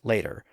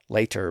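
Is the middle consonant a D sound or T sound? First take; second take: D sound; T sound. First: The middle consonant is a soft D sound. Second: The middle consonant is a clear T sound.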